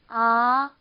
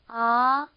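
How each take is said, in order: First: The pitch rises steadily from start to end. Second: The same.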